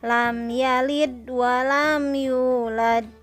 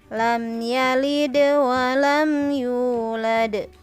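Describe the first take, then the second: First: The final d sound is held without bounce. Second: The final d sound is released with bounce. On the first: The speaker calls it wrong. "ibu ada kesalahan mengucapkan huruf dal sukun ya. Yang harusnya dipantulkan, tapi tidak dipantulkan atau ditahan" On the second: The speaker calls it right. "betul yang kedua ya"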